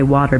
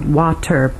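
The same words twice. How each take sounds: First: The t is said the American way. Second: The t is said the British way. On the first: The speaker calls it wrong. "instead of the American one where we say water" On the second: The speaker calls it right. "the British T for water"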